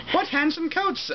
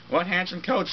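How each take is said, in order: First: Much higher, exaggerated exclamation; comically high misread of Pierre's line; overdone high read. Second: Said in the usual way. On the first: Shown as a demonstration. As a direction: squeal the line too high then stop. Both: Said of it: "Oh, sorry".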